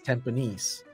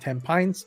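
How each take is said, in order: First: The name is said the way locals say it. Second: The name is said the way most people say it. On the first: The speaker calls it right. "This is how we pronounce it" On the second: The speaker calls it wrong. "Most people will pronounce it as Tampines, but no, it's not Tampines"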